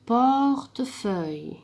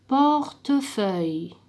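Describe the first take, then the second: First: "Portefeuille" drawn out very slowly with an audible e in the middle; slow, e pronounced. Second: "Portefeuille" drawn out very slowly, without the middle e; slow modelled word. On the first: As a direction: stretch "Portefeuille" slowly, sounding the e. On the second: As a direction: stretch "Portefeuille" very slowly, no e sound. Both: Shown as a demonstration.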